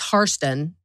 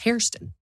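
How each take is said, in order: First: The first syllable sounds like 'car'. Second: The first syllable sounds like 'care'.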